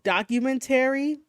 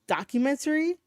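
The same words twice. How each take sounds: First: Every syllable of the word is fully pronounced. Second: One syllable of the word is reduced. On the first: The speaker calls it wrong. "I say it as documentary" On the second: The speaker calls it right. "when it's documentary"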